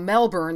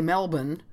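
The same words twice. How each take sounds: First: The word is said with full, unreduced syllables. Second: The word is said clipped with a reduced ending. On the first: "instead of Melbourne" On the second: "It's that very, very slangy, truncated thing"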